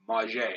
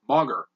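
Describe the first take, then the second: First: Mauger said as mah-ZHAY with a soft French zh; soft zh in Mauger, stress on the last syllable. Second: Mauger said as MAH-ger with a hard g; hard-g anglicised Mauger, stress up front; the way everyone gets Mauger wrong, MAH-ger; common mispronunciation. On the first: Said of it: "pronounce it the French way". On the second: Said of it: "everyone mispronounces this one". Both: Shown as a demonstration.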